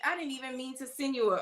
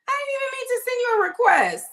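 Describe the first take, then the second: First: Said in the usual way. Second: High, loud, fast insistence; emphatic apology. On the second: Real, not acted. Host apologizes to V for pulling her in, loud and high. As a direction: blurt it out, really sorry.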